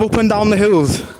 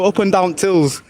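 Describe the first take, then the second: First: The words 'the hills' are said in full. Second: 'The hills' is squeezed into a single 'tills'. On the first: "Instead of up and down the hills" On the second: "they'll be like, oh, another part of Yorkshire"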